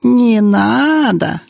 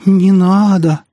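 First: Very high, long-drawn mock whine; deliberately squeaky, stretched-out jeer; squeaky mocking mimicry. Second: High, loud, drawn-out plea; frightened, pleading wail; plaintive moan. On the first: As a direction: mimic a coward in exaggerated squeak. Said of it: "нарочито песклявым голосом передразнила его". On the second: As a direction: moan it pitifully, stretching the words. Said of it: "жалобно простонал он". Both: A narrator's reading.

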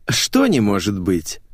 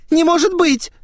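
First: Slow, drawn-out mocking question; amused echo. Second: Put-on very high, loud girlish protest; squealed disbelief. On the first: Natasha mocks her friend's denial, slow amused echo. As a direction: stretch it out, lightly amused. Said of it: "засмеялась Ната". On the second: Cornered girl protests to her friend, high squeal. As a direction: shriek it in disbelief. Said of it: "взвизгнула её собеседница". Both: A narrator's reading.

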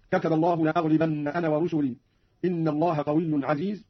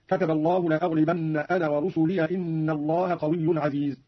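First: Said in the usual way. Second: ورسلي said "rusuliya", joined straight onto إن; fatha on the ya. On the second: Shown as a demonstration. Teacher showing Qalun's joined reading, ورسلي ending in "-ya". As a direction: open ورسلي into "-liya" and run on without pause. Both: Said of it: "قرأ قالون بفتح ياء ورسلي وصلا".

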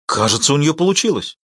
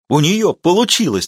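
First: Eager, lively outburst; excited exclamation. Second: Higher, louder triumphant cry; triumphant exclamation. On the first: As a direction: blurt it out with excitement. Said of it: "возбуждённо воскликнул он". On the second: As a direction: shout it like a victory. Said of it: "торжествующе воскликнул Ти-Джей". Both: A narrator's reading.

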